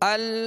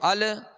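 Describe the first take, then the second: First: The final L stops cleanly without an echo. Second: The final L ends with an added echo. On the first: The speaker calls it right. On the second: The speaker calls it wrong.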